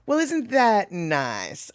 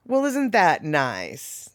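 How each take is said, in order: First: Slow, soft, sugary jab; hint of a Southern belle; syrupy Southern put-down. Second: Slow, soft, sugary sarcasm; mild mock Southern belle; syrupy Southern put-down. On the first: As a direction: sweeten it while meaning the opposite. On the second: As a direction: drawl it sweetly like a Southern lady insulting you. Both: Shown as a demonstration. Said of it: "the way she said it".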